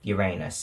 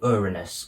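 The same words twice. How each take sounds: First: It is said in a childish, joking pronunciation. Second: It is said in a simplified pronunciation. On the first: This form is used as a rude joke. "or Uranus if you're a twelve-year-old" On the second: This is the later, everyday form of the name. "later simplified to Uranus"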